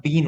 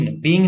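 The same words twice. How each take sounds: First: "been" ending in a clean n; correct ending shown. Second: "being" said with a final -ng; wrong ending shown. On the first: Teacher correcting a student's word, "been" modelled with a final n. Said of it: "been होता है". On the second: Teacher correcting a student's slip, "being" voiced with the mistaken -ng ending. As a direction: end "being" on an ng sound, as the mistake. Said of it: "being नहीं होता". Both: Shown as a demonstration.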